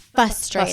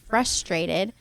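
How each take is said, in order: First: The word has no R sound after the F. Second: The word has an R sound after the F. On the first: The speaker calls it wrong. "I never really knew that there was an R in there" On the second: The speaker calls it right. "instead of saying frustrated"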